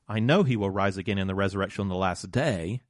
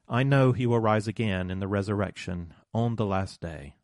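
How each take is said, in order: First: It is said in a questioning, expectant tone. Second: It is said in a resigned, accepting tone. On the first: Something might happen right now. "with a questioning expectation" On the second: The hope is only for a distant future. "with resigned hope to wait for the future"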